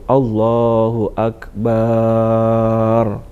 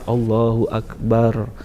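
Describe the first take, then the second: First: The vowel after the b in akbar is drawn out. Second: The b in akbar is held like a double consonant. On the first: "memperpanjang bacaan baknya ... itu tidak benar" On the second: "ditahan baknya seolah-olah itu adalah tasdid"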